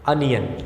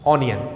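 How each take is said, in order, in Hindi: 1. पहला स्वर 'up' के 'u' जैसा सुनाई देता है। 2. पहला स्वर 'on' के 'o' जैसा सुनाई देता है। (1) "इसकी सही प्रोनाउंसिएशन है अनियन" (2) "स्पेलिंग ओ से शुरू होती है तो अक्सर लोग इसको प्रोनाउंस करते हैं ऑनियन... ये गलत प्रोनाउंसिएशन है"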